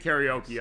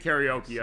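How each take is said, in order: First: The word has an English-style pronunciation. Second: The same.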